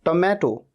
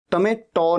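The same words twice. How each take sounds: First: टमैटो ending in closed "toh"; correct TO ending. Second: टमैटो ending in open "taw"; wrong ending. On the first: Teacher models tomato, round o at end. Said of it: "टो बोलना है". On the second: Teacher rejects mistake, open aw ending on tomato. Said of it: "टमैटो नहीं". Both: Shown as a demonstration.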